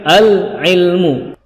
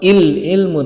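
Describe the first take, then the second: First: The word begins with an a vowel. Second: The word begins with an i vowel. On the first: The speaker calls it right. "yang benar adalah al ilmu" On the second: The speaker calls it wrong. "atau il ilmu"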